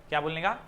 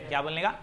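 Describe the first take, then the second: The two takes are said the same way.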